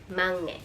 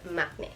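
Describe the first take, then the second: First: The first syllable ends in an ng sound. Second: The first syllable ends in a k sound. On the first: The speaker calls it right. "the pronunciation rule is it should be read as mangne" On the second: The speaker calls it wrong. "not not makne"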